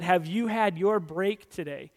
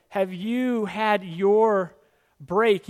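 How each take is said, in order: First: Said in the usual way. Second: Very slow, louder, drawn-out sell; mock advertising voice, slow and loud; slow coaxing ad pitch. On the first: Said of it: "an old McDonald's ad that said". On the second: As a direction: stretch it out like a tempting commercial. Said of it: "It's kinda like".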